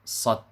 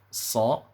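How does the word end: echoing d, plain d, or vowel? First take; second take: plain d; vowel. First: The word ends in a d with no echo. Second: The word ends on a vowel, with no d. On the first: "ada yang baca huruf sad tanpa qalqalah" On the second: "ada yang baca huruf sa"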